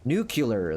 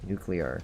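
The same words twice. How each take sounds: First: The word is given an imitated mispronunciation. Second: The word is given its standard pronunciation. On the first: The speaker calls it wrong. "That's how he used to say it" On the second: The speaker calls it right. "no, dude"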